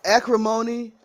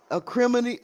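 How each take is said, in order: First: "acrimony" as AK-ruh-MOH-nee; first and third syllables stressed in "acrimony"; trying a pronunciation. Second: "acrimony" as uh-KRIM-uh-nee; "acrimony" with a short, unstressed "muh-nee" ending; trying another pronunciation. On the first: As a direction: say "acrimony" with a long "moan" in it. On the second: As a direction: stress the second syllable of "acrimony", KRIM. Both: Shown as a demonstration. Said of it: "I don't know how it's pronounced".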